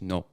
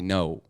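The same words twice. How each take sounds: First: The vowel is one steady sound. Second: The vowel glides between two vowel sounds. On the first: "In Spanish, it's just no" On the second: "in English, we say no, which is actually like it's two vowels"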